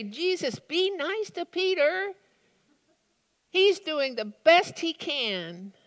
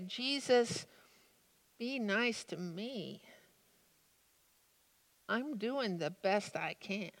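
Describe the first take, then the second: First: High, pleading appeal to Jesus; pleading for Peter. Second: Much softer, hushed confession; quiet plea for myself. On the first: Preacher pleading with Jesus to spare Peter, high. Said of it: "I find myself wanting to say". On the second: Preacher quietly asking Jesus for mercy for himself, hushed. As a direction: murmur the plea as if ashamed. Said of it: "I find myself actually wanting to say". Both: Pretend.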